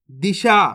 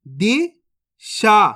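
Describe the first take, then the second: First: Said in the usual way. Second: Disha stretched very slowly, each sound held; slow teaching demo; drawn out slowly. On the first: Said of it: "तो मिलके बन जाएगा". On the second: Shown as a demonstration. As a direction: spell out Disha slowly for a child. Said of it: "अब चलिए आगे देखिए".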